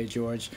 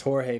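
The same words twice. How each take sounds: First: "George" said the English way; anglicized name. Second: "Jorge" said the Spanish way, HOR-hay; pronounced the Spanish way. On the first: Guest offering the easy form, "George" pronounced in English. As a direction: say "George" as in English, one syllable. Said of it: "it's pronounced Jorge, my last name, but just". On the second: Guest giving his last name, "Jorge" pronounced HOR-hay. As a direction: say "Jorge" with an h sound at the start. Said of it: "it's pronounced Jorge". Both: Shown as a demonstration.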